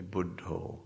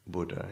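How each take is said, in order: First: Buddho ending in a long "oh"; Thai pronunciation. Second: Said in the usual way. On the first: Shown as a demonstration. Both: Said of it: "in the Thai pronunciation".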